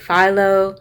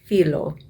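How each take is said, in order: First: The word is said in a common English way. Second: The word is said in the Greek way. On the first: The speaker calls it wrong. "commonly mispronounced by those who don't know Greek" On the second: The speaker calls it right. "In Greek, it is actually pronounced"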